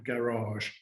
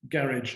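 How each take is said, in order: First: The word is pronounced in a foreign way. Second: The word is pronounced in an English way. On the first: The speaker calls it wrong. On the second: The speaker calls it right. "as Englishly as possible"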